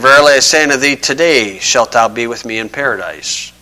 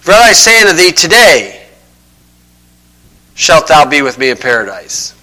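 First: The pause comes right before the word 'today'. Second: The pause comes right after the word 'today'. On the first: The speaker calls it right. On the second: The speaker calls it wrong.

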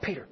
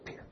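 First: The name is said aloud, louder. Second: The name is whispered softly. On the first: "and then a little louder" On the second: "first he whispered to him"

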